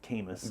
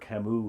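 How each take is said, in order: First: The name is pronounced in an anglicized way. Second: The name is pronounced in the usual French way.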